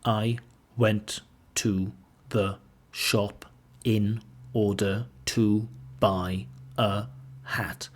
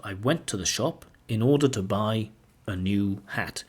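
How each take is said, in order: First: Slow, word by word with gaps; no chunking, every word isolated and evenly spaced; mechanical, robotic. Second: Words linked into smooth chunks, "in order to buy" run together; natural grouped phrasing, "I went to the shop / in order to buy / a new hat"; chunked phrasing. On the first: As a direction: pronounce each word separately, like a robot. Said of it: "the language sounds mechanical, robotic". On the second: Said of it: "the speaker sometimes chunks or groups words". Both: Shown as a demonstration.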